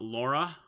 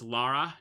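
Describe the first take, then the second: First: The first vowel sounds like 'aw'. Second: The first vowel sounds like 'ah'. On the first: The speaker calls it wrong. "not Laura, like everyone says it" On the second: The speaker calls it right. "It's Lara"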